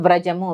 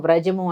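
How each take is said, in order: No difference in how they are said.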